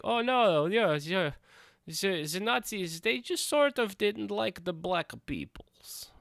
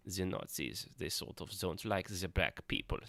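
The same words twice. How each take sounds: First: Put-on high, breathy-sounding caricature Russian accent, hushed at the end; a hammed-up Russian accent that slips in by mistake; mock Russian accent. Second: Put-on softer, lightly done German accent on "The Nazis"; corrected take in a mild German accent; mock German accent. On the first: Vlogger mocking the game's Nazi characters in a Russian accent. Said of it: "I don't know why he went Russian". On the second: Vlogger retrying the Nazi line, now in a soft German accent. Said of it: "I finally got the Russian accent, or the Nazi accent, the German".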